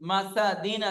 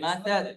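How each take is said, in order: First: The word ends with a full vowel ending. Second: The word ends cut off on a consonant. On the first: "মাসাদিন আছে" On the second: "আমরা পড়বো কি"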